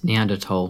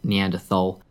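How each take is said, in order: First: The word is given its German pronunciation. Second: The word is given its English pronunciation. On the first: The speaker calls it right. "that's how that's actually pronounced. It's German" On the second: The speaker calls it wrong. "not Neanderthal"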